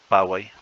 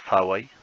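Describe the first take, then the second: First: The first consonant is a plain p. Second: The first consonant is aspirated, almost like f. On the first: "en forma simple Pawai" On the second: "la ph suena como F más o menos"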